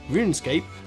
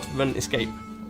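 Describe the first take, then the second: First: The name is split as Rune plus Scape. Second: The name is run together with a different split. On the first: This is the real name of the game. The speaker calls it right. "This was RuneScape" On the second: This is a joking misreading of the name. The speaker calls it wrong. "They kept calling it Runescape"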